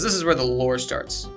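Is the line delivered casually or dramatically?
casually. It is said in a plain, casual way. The speaker calls it wrong.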